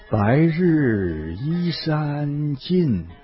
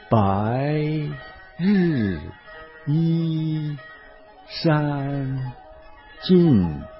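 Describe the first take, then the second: First: The syllables flow together at normal speed. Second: Each syllable is said slowly and separately. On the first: "再用正常速度读一遍" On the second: "跟我一个字一个字的读"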